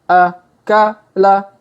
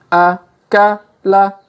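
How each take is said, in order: Both takes have the same delivery.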